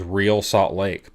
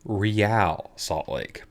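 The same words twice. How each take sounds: First: Real is said like the plain English word. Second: Real is said with a Spanish-sounding pronunciation. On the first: The speaker calls it wrong. "I was pronouncing wrong" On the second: The speaker calls it right. "because they fancy"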